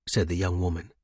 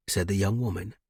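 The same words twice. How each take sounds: The two takes are said the same way.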